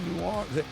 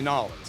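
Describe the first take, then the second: First: The name is said in full, all syllables. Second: The name is squeezed into two short syllables. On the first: This is how outsiders say it. The speaker calls it wrong. "Don't say New Orleans" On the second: This is how locals say it. The speaker calls it right. "Say Nolans. That's the way they say it"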